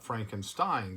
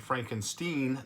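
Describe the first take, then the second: First: The name is pronounced the ordinary, familiar way. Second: The name is pronounced the character's unusual way. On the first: It is the common way people say it. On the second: It imitates how the character insists on saying it. "as he would say"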